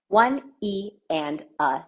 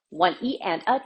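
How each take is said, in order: First: The counting is spoken at a slower pace. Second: The counting is spoken at a faster pace. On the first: "I'm going to say it a little bit slower" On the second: "what happens if we double time it?"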